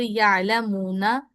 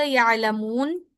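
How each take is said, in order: First: Slow, with the final ना voiced in full as यालमूना; यालमूना recited in full, slow Quranic style; recited example word. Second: यालमून with the ना dropped, stopping on a silent नून; यालमून read as a pausal stop, long vowel then a silent नून; pause form. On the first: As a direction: read यालमूना slowly in the running recitation, the ना kept. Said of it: "जैसे यालमूना". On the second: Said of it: "जब हम नून पे वक्फ करेंगे". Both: Shown as a demonstration.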